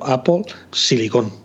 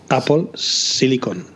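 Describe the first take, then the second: First: Silicon is stressed on the last syllable, Spanish-style. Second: Silicon is stressed on the first syllable, English-style.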